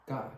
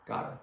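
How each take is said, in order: Both takes have the same delivery.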